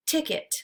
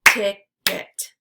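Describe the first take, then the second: First: Said in the usual way. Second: "Ticket" as two separate beats, Tic – ket; syllables split apart. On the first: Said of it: "repeat the word". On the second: Shown as a demonstration. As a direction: say "Ticket" syllable by syllable, pausing between. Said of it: "break it into the syllables".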